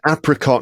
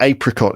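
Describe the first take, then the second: First: It is said with an American pronunciation. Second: It is said with a British pronunciation. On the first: This is how the singer says it. "She sings apricot" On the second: This is how people say it locally. "not apricot"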